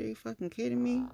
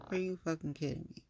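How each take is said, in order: First: High, quick disbelief; incredulous retort. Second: Muted incredulous repeat. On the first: Telling him she isn't stupid, high incredulous retort. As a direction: toss it out fast and high, incredulous. Retort to being called smart. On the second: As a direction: repeat it fast, pitch back down. Repeats the retort, dropping back down. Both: Retold or imitated.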